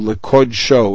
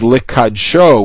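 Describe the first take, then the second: First: The vowel after the k is 'o'. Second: The vowel after the k is 'a'. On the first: It is sort of an adjective. The speaker calls it wrong. "as opposed to Likodsho, which is a common mistake" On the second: It is a verb meaning to sanctify it. The speaker calls it right. "the proper way to vocalize that last word is Likadsho, which is a verb"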